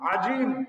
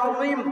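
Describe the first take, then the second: First: The middle consonant is a j sound. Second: The middle consonant is a z-like sound. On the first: The speaker calls it wrong. "জিম হয়ে যাচ্ছে" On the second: The speaker calls it right. "যা না হয়ে"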